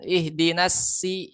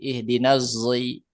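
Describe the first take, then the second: First: The second word starts with a plain thin s. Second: The second word starts with a z sound. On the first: "Tapi kalau masih pakai sin" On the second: "bisa dibaca jai, zai"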